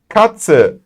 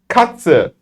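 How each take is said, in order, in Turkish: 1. tz, ts gibi söylenir. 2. tz, ts gibi söylenir.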